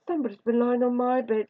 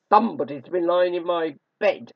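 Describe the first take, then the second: First: Higher, middle-sized bear voice; mellow Mother Bear. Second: Loud, great growling bear voice; gruff, growling Father Bear. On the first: Mother Bear finding her bed disturbed, mellow. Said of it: "said Mother Bear". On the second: Father Bear finding his bed disturbed, gruff growl. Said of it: "gruff, growling voice". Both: A narrator's reading.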